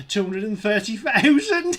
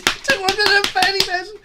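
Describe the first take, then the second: First: Said in the usual way. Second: Repeating it higher through a laugh; a delighted laughing echo of the number; laughing excited. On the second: Real, not acted.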